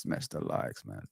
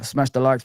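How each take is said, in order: First: Whispered. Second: Said in the usual way. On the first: Shown as a demonstration.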